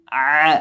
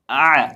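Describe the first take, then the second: First: आ as a plain alif without the throat; plain आ, no ain; wrong way. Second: आ voiced from the middle of the throat as ain; आ with throaty ain sound; correct way. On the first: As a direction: show the wrong आ. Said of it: "आ नहीं". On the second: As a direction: squeeze आ from mid-throat. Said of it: "हलक के दरमियान से". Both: Shown as a demonstration.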